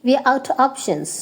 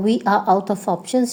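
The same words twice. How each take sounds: First: "out of" as outta, "We are" as we're; shortened form. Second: Said in the usual way. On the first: Shown as a demonstration. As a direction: drop the f sound in "out of". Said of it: "you can say". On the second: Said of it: "And for".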